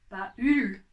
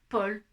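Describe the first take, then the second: First: The vowel is said as separate 'a' and 'u'. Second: The vowel is said as a single 'o' sound. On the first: The speaker calls it wrong. "Je ne dis pas Paul" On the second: The speaker calls it right. "Je dis bien Paul. ... il va chanter O"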